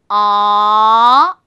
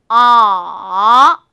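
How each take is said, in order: First: The pitch rises from middle to high. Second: The pitch dips very low, then rises again. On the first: "중간 음에서요, 높은 음으로 올라서 이렇게 밀어 올리면서" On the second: "낮은 음에서 시작해서요, 그 다음에 아주 낮은 음으로 뚝 떨어뜨리세요. 그리고 나서 다시 약간 높은 음으로 올라오는"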